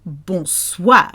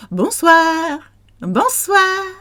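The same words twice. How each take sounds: First: Exaggerated bonsoir. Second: "Bonsoir" in a high sing-song; high, cheery French "Bonsoir"; light high bonsoir. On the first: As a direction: overdo "Bonsoir" as bon-swahr, at speaking pitch. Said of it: "don't have to say it like that". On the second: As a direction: lift "Bonsoir" way up, held on swahr. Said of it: "You can go". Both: Shown as a demonstration.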